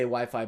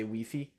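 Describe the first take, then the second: First: It is said with an English pronunciation. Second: It is said with a French pronunciation.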